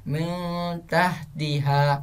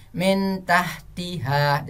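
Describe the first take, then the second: First: "min tahtiha" with n veiled in a held hum; slow hummed "min" into "tahtiha"; correct ikhfa reading. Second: "Min tahtiha" with a short clear n; unveiled n in slow "Min tahtiha"; wrong clear-n reading. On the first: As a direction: blur the n of "min" and hold it. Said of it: "Jangan seperti itu, tapi". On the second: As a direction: pronounce the n of "Min" plainly, no hum. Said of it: "Jangan antum baca seperti ini". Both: Shown as a demonstration.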